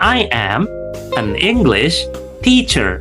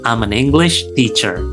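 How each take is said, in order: First: 'I am' is said as two full words. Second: 'I am' is contracted into one syllable. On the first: The speaker calls it wrong. "itu terlalu panjang ya" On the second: The speaker calls it right. "Itu kalau ingin terdengar fluent"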